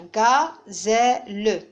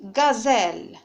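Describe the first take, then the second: First: "gazelle" broken into three beats, ga-zè-le; teacher chops "gazelle" into ga, zè, le; split into syllables. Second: Said in the usual way. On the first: Shown as a demonstration. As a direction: say "gazelle" syllable by syllable, sounding the final e. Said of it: "je vais les découper". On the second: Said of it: "Je vais les prononcer".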